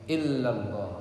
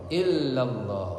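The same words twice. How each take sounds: Both takes have the same delivery.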